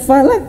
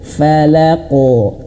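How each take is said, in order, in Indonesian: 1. Pantulan qaf di akhir terdengar tipis. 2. Pantulan qaf di akhir terdengar tebal, seperti o. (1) "Bukan falaq" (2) "Tebalkan falaqo"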